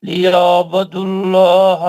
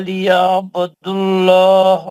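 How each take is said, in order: The two takes are said the same way.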